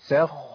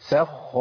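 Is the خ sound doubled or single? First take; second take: doubled; doubled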